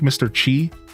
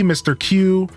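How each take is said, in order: First: The name is said with a ch sound. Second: The name is said like the letter Q.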